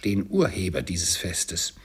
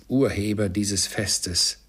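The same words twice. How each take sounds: First: Said in the usual way. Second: Slow sarcastic repeat of Urheber dieses Festes; wife mocks Bob's toast to Scrooge; mocking echo. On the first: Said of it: "rief Bob". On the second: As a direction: echo his words with scorn, slowly. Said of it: "rief Misses Cratchit".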